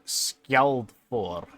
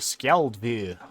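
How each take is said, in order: First: The last syllable has an O sound. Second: The last syllable has an E sound. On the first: The speaker calls it wrong. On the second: The speaker calls it right.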